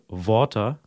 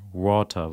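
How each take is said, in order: First: It begins with a v-like sound, teeth on lip. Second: It begins with a rounded-lip w-like glide. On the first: The speaker calls it wrong. "im Deutschen sagt man auch ganz oft Water mit einem W" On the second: The speaker calls it right. "aber richtig wäre oder richtiger wäre so ein Water"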